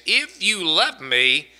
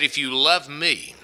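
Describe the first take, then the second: First: "If you love me" slow and weighted, pitch lifted on "If you love"; emphatic. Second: Said in the usual way. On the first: Retold or imitated. Preacher quoting Jesus to the congregation, "If you love me" said emphatically. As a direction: lean slowly on each word of "If you love me". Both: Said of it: "he even goes in an emphatic way".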